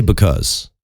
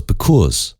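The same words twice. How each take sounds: First: Said in the usual way. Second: Imitated Philly accent on "Because"; Stevie Richards, Philly accent. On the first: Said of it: "I say because". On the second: Podcaster from Philly imitated by a Chicago speaker, Philly accent. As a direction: say "Because" with a Philly vowel, like "buh-kooz". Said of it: "Stevie Richards on his podcast, he goes".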